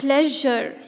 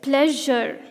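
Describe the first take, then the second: First: The middle consonant sounds like a soft 'zh'. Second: The same.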